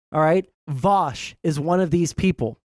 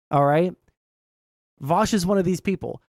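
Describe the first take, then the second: No difference in how they are said.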